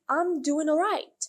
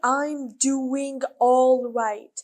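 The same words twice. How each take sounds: First: The words are reduced, with no final g sound. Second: Each word is pronounced fully and carefully. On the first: The speaker calls it right. "They say" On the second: The speaker calls it wrong.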